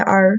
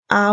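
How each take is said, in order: First: The letter is said with a strong r. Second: The letter is said without an r sound.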